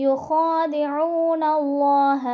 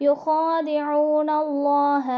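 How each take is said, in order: No difference in how they are said.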